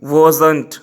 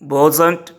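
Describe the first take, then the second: Both takes have the same delivery.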